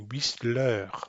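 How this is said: It is said the English way. The speaker calls it right. "like they think it should be pronounced in English"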